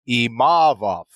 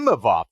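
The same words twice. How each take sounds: First: The stress is on a later syllable. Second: The stress is on the first syllable. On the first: The speaker calls it right. "as opposed to Imavov" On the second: The speaker calls it wrong. "the emphasis was on the E, that first one"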